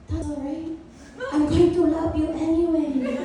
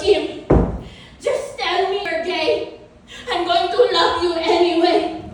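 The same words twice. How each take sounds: First: Hushed start, mock motherly reassurance; imitating a forgiving mom; consoling mom impression. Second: Put-on motherly insistence; mom impression. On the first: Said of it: "my mom finally looks at me and she goes". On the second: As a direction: imitate mom coaxing, pushing the last phrase. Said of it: "she looks at me and she goes".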